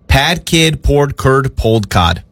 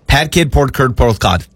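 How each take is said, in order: First: It is said at a slower pace. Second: It is said at a faster pace.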